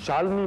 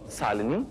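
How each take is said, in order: First: The word begins with an 'sh' sound. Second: The word begins with an 's' sound. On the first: The speaker calls it right. "श को स बोलते हो" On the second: The speaker calls it wrong. "श को स बोलते हो"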